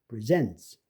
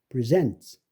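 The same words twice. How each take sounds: No difference in how they are said.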